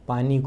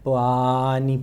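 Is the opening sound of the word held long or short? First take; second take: short; long. First: The word is said at normal length. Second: The opening sound is stretched out long.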